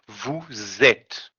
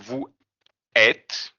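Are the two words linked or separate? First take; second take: linked; separate. First: A z sound links the two words together. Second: The words are said separately without a z sound. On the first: The speaker calls it right. "We're gonna link those two" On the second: The speaker calls it wrong. "instead of saying"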